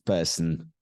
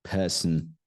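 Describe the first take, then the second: No difference in how they are said.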